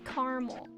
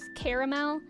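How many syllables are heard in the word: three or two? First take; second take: two; three. First: The word is said with two syllables. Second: The word is said with three syllables. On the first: "I say caramel" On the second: "do you say it with three syllables?"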